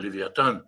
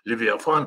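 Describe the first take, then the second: First: The name is said with a t sound. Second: The name is said with an f sound. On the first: "давайте так и переведем его" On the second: "или как в синодальном переводе говорят"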